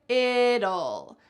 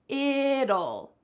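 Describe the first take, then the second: The two takes are said the same way.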